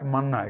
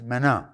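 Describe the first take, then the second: First: The first vowel sounds like the 'a' in man. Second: The first vowel sounds like the 'e' in men. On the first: The speaker calls it wrong. "మన్నా is wrong pronunciation" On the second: The speaker calls it right. "యాక్చువల్గా దాని పేరు మెనా"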